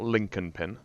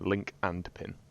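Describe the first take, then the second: First: The words are blended to sound like one name. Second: The three words are said clearly and separately. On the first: The speaker calls it wrong. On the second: The speaker calls it right.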